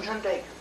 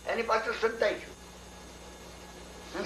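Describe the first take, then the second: First: Said in the usual way. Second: Slow, breathless whisper; hushed hiding. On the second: Acted. Hiding behind the rock.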